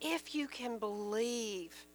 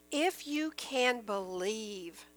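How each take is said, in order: First: Soft, slow and reflective; hushed repeat. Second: Slow, deliberate scripture reading; slow, measured. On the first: Preacher repeating Jesus' words to the congregation, hushed. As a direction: drop the volume and let "believe" sink in. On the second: Preacher quoting Jesus to the congregation, slow and measured. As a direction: read it slowly, letting "believe" fall. First reading of repeated verse. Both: A narrator's reading.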